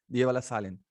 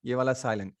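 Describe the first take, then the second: No difference in how they are said.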